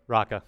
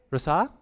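First: Raca said with a hard k, falling and sure; settled pronunciation. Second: Rasa said with an s and a rising, unsure tone; unsure pronunciation. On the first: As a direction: land firmly on Raca. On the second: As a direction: try Rasa as a doubtful question. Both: Shown as a demonstration. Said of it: "I'm going with Raca".

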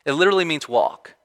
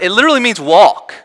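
First: Said in the usual way. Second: "walk" driven home, high and loud; emphatic. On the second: Real, not acted. Preacher explaining a Greek word to the congregation, emphatic. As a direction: raise pitch and volume through to "walk".

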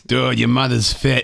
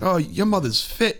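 First: High, loud, slow Boston accent; hammed-up Boston accent, stretched out. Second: High, slow, badly faked British accent; shitty UK accent. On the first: Shown as a demonstration. Guest line retried for friends as a test, loud Boston accent. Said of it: "doesn't work with a Boston accent". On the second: British guest admiring his host's mom, high mock British accent. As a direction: leer it as a mock British lad, pitched way up. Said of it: "I have a shitty U K accent".

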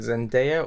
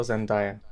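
First: Zendaya said Zen-DAY-a; DAY pronunciation. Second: Zendaya said Zen-DIE-a; DIE pronunciation. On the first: Asking co-host how to say the name, Zendaya as Zen-DAY-a. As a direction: stress the middle of Zendaya, rhyming it with day. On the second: Offering co-host the other option, Zendaya as Zen-DIE-a. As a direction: stress the middle of Zendaya, rhyming it with die. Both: Shown as a demonstration. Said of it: "is it Zendaya or Zendaya".

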